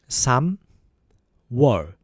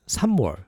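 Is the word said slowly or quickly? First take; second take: slowly; quickly. First: The word is said slowly and carefully. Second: The word is said quickly and smoothly.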